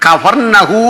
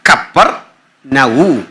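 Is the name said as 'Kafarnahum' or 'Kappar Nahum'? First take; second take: Kafarnahum; Kappar Nahum. First: The name has an f sound: Kafarnahum. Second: The name has a doubled p: Kappar Nahum. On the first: This is the usual borrowed form. The speaker calls it wrong. "നമ്മളീ പറയുന്ന കഫർനഹൂം എന്നല്ല ശരിക്കും പറയണ്ടേ" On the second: This is the original form. The speaker calls it right. "ശരിക്കും പറയണ്ടേ"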